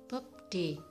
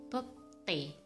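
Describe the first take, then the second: First: The second consonant is plain, not tensed. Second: The second consonant is tensed. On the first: The speaker calls it wrong. "Harusnya dibaca bobde" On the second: The speaker calls it right. "tapi yang benar dibaca bobte"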